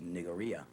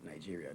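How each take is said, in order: First: The consonant after the first vowel is a hard g. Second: The consonant after the first vowel is a j sound. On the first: The speaker calls it right. "the right pronunciation of Nigeria is Nigeria" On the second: The speaker calls it wrong. "not Nigeria. There's no J in the spelling"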